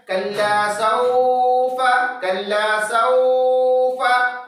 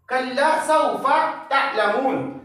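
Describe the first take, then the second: First: Slow chanted कल्ला सौफा with सौफा held long; teacher demonstrates the wrong long reading; wrong stretched reading. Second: Slow, gentle Quranic reading of कल्ला सौफा तअलमून; teacher reciting a verse gently; soft recitation. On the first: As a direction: drag out सौफा like a wrong recitation. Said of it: "वो गलत होगा". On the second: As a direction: recite softly, without stretching सौफा. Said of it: "हुरूफ लीन में नरमी के साथ पढ़ना है।". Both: Shown as a demonstration.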